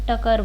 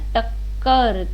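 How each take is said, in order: First: The middle k sound is short and single. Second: The middle k sound is held and doubled. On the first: The speaker calls it wrong. "अगर एक क मैं हटा दूं इसमें तो वो क्या बनेगा" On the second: The speaker calls it right. "इस पे ज़्यादा जोर आ रहा है ना"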